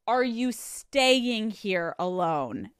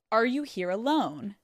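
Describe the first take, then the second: First: Slow question leaning hard on "staying"; stress on staying. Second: Said in the usual way. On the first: Retold or imitated. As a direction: draw out "staying" to narrow the question. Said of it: "they were like". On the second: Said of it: "they ask him".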